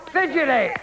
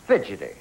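First: Calling out. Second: Said in the usual way. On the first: Real, not acted. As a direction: call it out to the board. Host calls answer to board.

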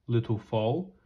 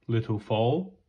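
The two takes are said the same way.

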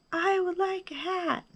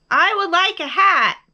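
First: High, soft echoed answer; small distant high voice. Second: High, loud answer; big high-pitched bear voice; calling out. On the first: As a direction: repeat it like a faraway echo. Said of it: "his own voice echoed". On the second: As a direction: call it out to someone far away. Bear calls across to the moon. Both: A narrator's reading.

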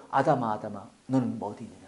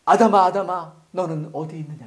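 First: Soft, searching call to Adam; gentle calling. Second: Said in the usual way. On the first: Acted. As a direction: lower and softer, tender calling of Adam. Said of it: "안 했어요". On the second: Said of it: "뭐랬어요?".

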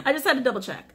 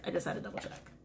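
First: Quick, high words bubbling with laughter; laughing. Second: Breathy whisper to herself, much softer; whispered aside. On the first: Reader confirming the devil card, laughing with relief. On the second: Reader muttering to herself after checking the card, whispered. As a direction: whisper it under your breath. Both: Real, not acted.

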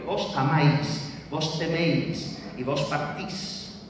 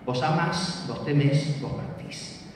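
First: AMÁIS and TEMÉIS ending in full ái and éi glides; diphthong endings. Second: AMÁS and TEMÉS ending in one stressed vowel, no glide; single stressed vowel. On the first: Lecturer showing old voseo verb forms, diphthong endings. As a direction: sound both vowels at the end of AMÁIS, TEMÉIS. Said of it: "se monotongaron". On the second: Lecturer showing modern voseo forms, single stressed vowel. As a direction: say AMÁS, TEMÉS with pure final á and é. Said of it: "quedaron con una única vocal acentuada". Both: Shown as a demonstration.

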